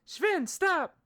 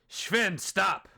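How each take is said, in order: First: It is said in a woman's voice. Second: It is said in a man's voice.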